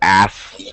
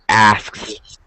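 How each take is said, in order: First: The K sound in the middle is barely heard. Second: The K sound in the middle is clearly pronounced.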